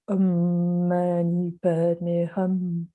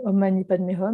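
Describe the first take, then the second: First: It is said with a deep resonant vibration. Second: It is said in an ordinary speaking voice. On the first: "ce n'était plus une vibration qui se projetait à l'extérieur" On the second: "je le récitais comme je vous parle là"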